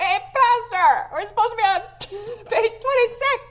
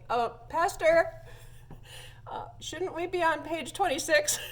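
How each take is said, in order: First: Mock long-distance yell. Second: High, raised voice with hesitant breaks; mock-polite call over a balcony; imitated calling out. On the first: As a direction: pretend to shout down a huge echoey church. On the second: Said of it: "so she yells over the balcony".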